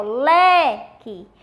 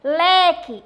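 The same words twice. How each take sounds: First: "leque" with a long, strong "le", then "que"; stress on LE. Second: Said in the usual way. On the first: Shown as a demonstration. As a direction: stretch the first syllable of "leque" slowly. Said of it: "você pronuncia com mais força". ("leque" devagar, alongando e reforçando o "le") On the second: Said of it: "mas vamos pronunciar ela".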